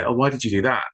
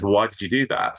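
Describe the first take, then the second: First: Higher, breezy and friendly, Oh, why did you do that? with a falling end; light casual ask. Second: Accusing tone. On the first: Helpline trainer showing a harmless-sounding why question, light and easy. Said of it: "you're just saying it as a". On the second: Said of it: "with that sort of intonation". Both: Shown as a demonstration.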